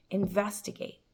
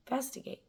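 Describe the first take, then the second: First: Said in the usual way. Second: "Investigate" dropped to a near-whisper, much softer; much softer repeat. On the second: Shown as a demonstration. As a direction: echo "Investigate" softly to yourself.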